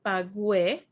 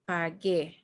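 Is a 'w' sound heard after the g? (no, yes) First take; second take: yes; no. First: The g is followed by a 'w' sound. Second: The g is followed directly by the vowel. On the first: The speaker calls it wrong. "not pagué" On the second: The speaker calls it right. "you don't pronounce the U, just the G"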